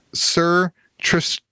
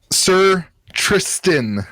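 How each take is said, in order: First: "Sir Trish" with a slurred lisp, s blurred to sh; lisping "Sir Trish" instead of Tristan. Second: Every sound of "Sir Tristan" spelled out clearly; careful pronunciation. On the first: Real, not acted. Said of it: "I turned into George with, with a lisp". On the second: Shown as a demonstration. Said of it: "Did I do that right?".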